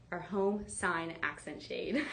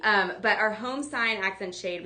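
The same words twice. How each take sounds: First: Tripping over the name with a laugh; stumbling laugh. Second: Said in the usual way. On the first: Real, not acted. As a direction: laugh through the tangled product name. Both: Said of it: "that was a mouthful".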